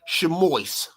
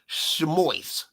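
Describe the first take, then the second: First: It is said the Yiddish way, ending in -ois. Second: The same.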